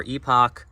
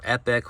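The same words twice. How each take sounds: First: EPOCH said as EE-pock; "Epoch" opening on EE, ending like "pock"; alternative pronunciation. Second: EPIC said as EP-ick; "Epic" opening on short EH, ending in "ick"; alternative pronunciation. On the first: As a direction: say "Epoch" with a long ee and a clear "ock". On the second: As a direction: say "Epic" with a short e, like the word for grand. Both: Shown as a demonstration. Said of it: "however you wanna say it".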